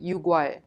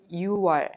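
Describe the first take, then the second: First: A k sound is heard before 'wol'. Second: No k sound is heard before 'wol'. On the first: The speaker calls it wrong. "we don't pronounce it 육월" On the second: The speaker calls it right. "just you pronounce it 유월"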